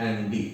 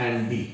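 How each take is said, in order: No difference in how they are said.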